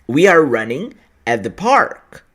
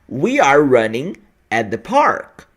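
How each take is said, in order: The two takes are said the same way.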